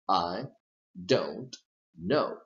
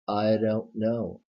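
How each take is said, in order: First: Each word is said separately, with a clear D. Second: The words run together with a flapped D. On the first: "If you pronounce these three words um, separately" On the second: "it is extremely common to say"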